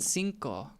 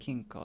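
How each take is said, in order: First: The word begins with an S sound. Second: The word begins with a K sound. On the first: The speaker calls it right. "did they mean cinco?" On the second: The speaker calls it wrong. "in Welsh the C is pronounced like a K"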